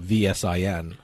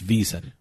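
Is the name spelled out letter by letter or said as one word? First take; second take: letter by letter; one word. First: Each letter is spoken separately. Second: It is spoken as a single word. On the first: The speaker calls it wrong. "I don't say out the whole VSIN" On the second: The speaker calls it right. "It's VSIN"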